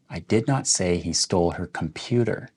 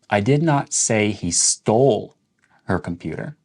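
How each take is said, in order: First: The word computer carries the main stress. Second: The word stole carries the main stress. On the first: He might have stolen something else of hers. "let's emphasize the word computer" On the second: He might have borrowed or lost it instead. "So that's questioning whether or not he stole it"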